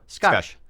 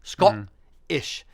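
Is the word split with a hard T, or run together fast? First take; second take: run together; split. First: Said fast and run together with an ah. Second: Split into two halves with a hard T. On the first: "Say it fast and kind of push it together and say the ah instead of an o" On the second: "a hard guttural T, like ... So you're kind of separating the word into two halves"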